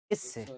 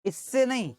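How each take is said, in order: First: इससे dropped low and soft, falling; settling contrast. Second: इससे punched high, then falling on नहीं; contrastive stress. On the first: Teacher confirming the right figure, low falling इससे. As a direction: land इससे quietly as the settled answer. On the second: Teacher correcting which figure is meant, contrastive stress on इससे. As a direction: hit इससे high to rule it out. Teacher rejects the wrong reference. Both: Shown as a demonstration.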